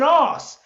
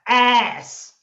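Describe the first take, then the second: First: The word is said in a British accent. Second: The word is said in an American accent. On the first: The speaker calls it wrong. "Not even ass" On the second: The speaker calls it right. "I put it in an American accent"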